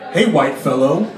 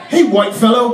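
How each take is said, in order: First: It is said in a put-on imitation voice. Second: It is said in his ordinary speaking voice.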